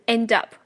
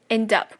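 No difference in how they are said.

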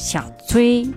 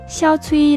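First: The name is said with its changing Chinese tones. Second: The name is said with level high tones throughout. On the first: The speaker calls it wrong. "但你不要说小崔，因为韩语里面没有声调" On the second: The speaker calls it right. "我建议你全部都说医生。这样听起来很温柔很亲切"

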